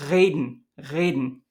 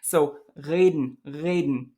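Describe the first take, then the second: First: "reden" with a rolled or fricative R; "reden" with a clear consonantal R; German reden. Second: "reden" with a vowel-like R; "reden" with the R melting toward a vowel; German reden. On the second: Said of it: "I've got some examples for you". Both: Shown as a demonstration.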